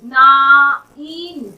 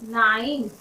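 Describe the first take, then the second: First: नाइन slowly split as "naa-een"; drawn-out sounding out. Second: Said in the usual way. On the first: Shown as a demonstration. Teacher showing the I sound, नाइन slowly sounded out. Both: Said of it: "आई का sound हो रहा है".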